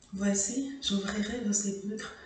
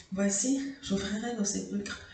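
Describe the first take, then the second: Both takes have the same delivery.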